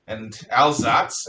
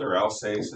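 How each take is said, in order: First: Alsace said the German way, slow and low, as the Germans call it; German way of saying Alsace. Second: Alsace said the French way, as the French call it; French way of saying Alsace. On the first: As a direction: give Alsace its German sound. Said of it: "as the Germans call it". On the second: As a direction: give Alsace its French sound. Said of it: "as the French call it". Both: Shown as a demonstration.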